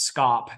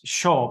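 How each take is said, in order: First: The word begins with an 'sk' sound. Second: The word begins with an 'sh' sound. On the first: The speaker calls it wrong. "which a lot of people mispronounce as scop" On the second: The speaker calls it right. "the S C in Old English is a sh sound, so it's shop"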